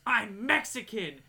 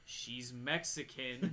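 First: Loud, drawn-out retold scream; mock scream. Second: Low, very slow restatement; deadpan correction. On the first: Woman screams at the guard mid-description, mock scream. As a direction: yell it slowly, higher and louder. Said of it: "she just looks at me and screams". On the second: Retold or imitated. Guard amends description over the radio, deadpan correction. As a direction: say it lower, softer and drawn out.

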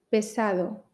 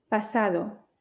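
First: Pesado with a clear e; pesado, e then a then o; E vowel. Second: Pasado with an open a; pasado, a then a then o. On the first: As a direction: keep the first vowel of pesado a mid e. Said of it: "Con E, A, O, pesado". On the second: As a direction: drop the jaw on the first vowel of pasado. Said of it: "dime cuántas veces oyes pesado". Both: Shown as a demonstration.

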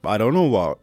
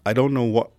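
Both takes have the same delivery.

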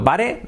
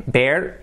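First: "bare" as written in Spanish, "BA-re"; spelling pronunciation. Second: Said in the usual way. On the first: Shown as a demonstration. Teacher comparing homophones for learners, "bare" read as "BA-re". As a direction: sound the final e of "bare". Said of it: "Escrito bare". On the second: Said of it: "No difference".

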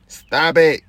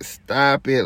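First: Loud, sharp shout of stop it. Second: Said in the usual way. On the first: Real, not acted. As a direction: yell it at them, fed up. Ranting at women listeners.

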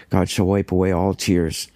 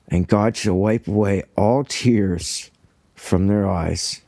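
First: Said in the usual way. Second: Slow, emotion-thick reading of the verse; a touch of real choking up on the words; choked up. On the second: Real, not acted. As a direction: read it slowly, as if fighting back tears. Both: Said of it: "I can barely read that without getting choked up".

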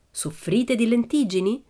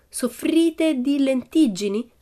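First: Slow, raised "Soffrite di lentiggini"; reading a sign. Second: Very slow, high "soffrite di lentiggini"; reading aloud. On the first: Narrator showing the sign, slow "Soffrite di lentiggini". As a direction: announce "Soffrite di lentiggini" like a written question. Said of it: "un cartello che diceva". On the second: Annika reading for Pippi, slow high "soffrite di lentiggini". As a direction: spell out "soffrite di lentiggini" word by word. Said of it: "lesse Annika". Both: A narrator's reading.

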